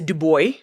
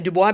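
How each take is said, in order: First: The name has an American English pronunciation. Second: The name has a French pronunciation. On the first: "Americans would say, so for Americans listening, I know you say Du Bois" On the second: "that's how we say it in French"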